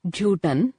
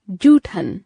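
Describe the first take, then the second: First: जूठन said with a plain unaspirated t, rising and softer; teacher shows the wrong joot-an; wrong form. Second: जूठन said with an aspirated th, falling; teacher gives the right jooth-an; correct form. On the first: Teacher to students, demonstrating the wrong pronunciation. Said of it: "अशुद्ध". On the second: Teacher to students, giving the correct pronunciation. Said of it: "शुद्ध". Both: Shown as a demonstration.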